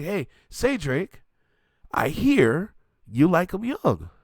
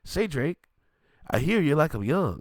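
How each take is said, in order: First: Slow, drawn-out quote of the lyric. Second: Said in the usual way. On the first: Retold or imitated. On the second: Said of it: "repeating those same words".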